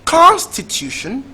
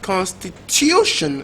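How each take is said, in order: First: The stress is on the first syllable. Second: The stress is on the third syllable. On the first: The speaker calls it wrong. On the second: The speaker calls it right.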